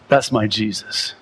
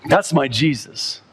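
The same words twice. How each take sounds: First: Tender, lower. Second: Said in the usual way. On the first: Shown as a demonstration. Preacher repeating his faith to the congregation, tender and low. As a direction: say "That's my Jesus" low and tender, like a confession.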